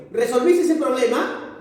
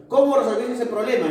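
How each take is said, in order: First: "Resolviste ese problema" high, rising to the end; yes-or-no question. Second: "Cómo" high, falling through to "problema"; open question. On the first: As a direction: lift "problema" as if awaiting yes or no. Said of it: "cuando una oración interrogativa es total". (pregunta total, "problema" con final ascendente) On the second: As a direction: hit "Cómo", let "problema" fall at the end. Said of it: "Y parcial, la respuesta no es cortante". (pregunta parcial, "Cómo" alto y final descendente) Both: Shown as a demonstration.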